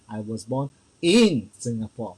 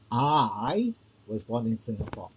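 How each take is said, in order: First: The word "born" carries the stress. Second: The word "I" carries the stress. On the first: I was born here, not naturalised later. "meaning I, I'm born here, bred here" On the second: It was me, not someone else. "Emphasis is me, not other people"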